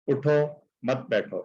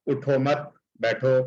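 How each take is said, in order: First: اٹھو مت بیٹھو in one breath; one phrase with no stop before بیٹھو; no pause, run together. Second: اٹھو مت, stop, then بیٹھو; اٹھو مت and بیٹھو as two separate commands; pause after مت. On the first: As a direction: glide from اٹھو straight to بیٹھو. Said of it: "اگر وہ وقف نہیں کریں گے". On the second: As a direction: break cleanly after مت. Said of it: "وقف لازم پہ وقف کیوں ضروری ہے". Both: Shown as a demonstration.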